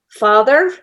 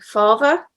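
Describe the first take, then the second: First: The middle sound is th, ending with an R. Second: The middle sound is v, with no final R. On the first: "which you would in a Scots kind of way" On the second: "they were losing the R at the end"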